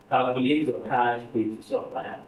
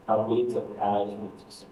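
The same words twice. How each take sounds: First: "Calculate your cash with your plan" said slowly, word by word; slow dictation. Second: Said in the usual way. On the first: Shown as a demonstration. Teacher dictating the task to the class, slow and careful. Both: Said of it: "repeated dictation".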